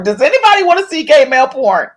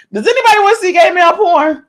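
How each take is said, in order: First: Said in the usual way. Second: Higher and faster, mock disbelief; high incredulous repeat. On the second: Shown as a demonstration. Asking viewers again in a higher, faster voice. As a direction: throw the question up high, rushing it. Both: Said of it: "repeats the question, higher".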